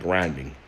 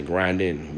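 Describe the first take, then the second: First: Said in the usual way. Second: "grinding" said without the G at the end; dropped final G. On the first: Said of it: "the G at the end of it". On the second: Shown as a demonstration. Explaining how we say certain words, dropped G on "grinding". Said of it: "we don't say the, the, the G at the end of it".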